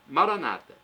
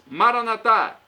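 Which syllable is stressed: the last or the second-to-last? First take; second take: second-to-last; last. First: The stress is on the second-to-last syllable. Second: The stress is on the last syllable. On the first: This is how evangelicals or Protestants say it. "os evangélicos ou protestantes colocam a tônica na penúltima sílaba" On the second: This is how Catholics say it. "Os católicos colocam a tônica na última sílaba"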